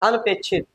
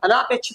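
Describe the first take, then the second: First: It has no long vowel after 'an'. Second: It has a long 'aa' sound after 'an'. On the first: The speaker calls it right. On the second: The speaker calls it wrong. "अनापेक्षित नहीं"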